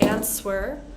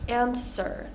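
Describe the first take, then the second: First: A w sound is heard after the s. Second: No w sound is heard after the s. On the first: The speaker calls it wrong. "Make sure to avoid answer" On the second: The speaker calls it right. "Our silent W's"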